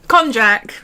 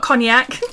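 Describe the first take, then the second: First: The middle sounds like the 'j' in 'jam'. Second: The middle sounds like the 'ny' in 'canyon'. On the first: The speaker calls it right. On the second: The speaker calls it wrong. "Not cognac"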